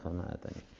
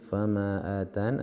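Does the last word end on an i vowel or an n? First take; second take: i vowel; n. First: The phrase ends on an i vowel. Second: The phrase ends on an n sound. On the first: "berhenti pada ya" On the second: "berhenti pada nun"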